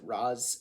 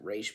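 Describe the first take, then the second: First: The name ends with a z sound. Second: The name ends with a sh sound. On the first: This is how the speaker personally says it. "I pronounce it Raz" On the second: This is how the show says it. "the show pronounces it Raish"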